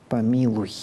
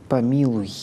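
No difference in how they are said.

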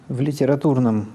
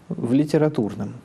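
The two takes are said the same way.

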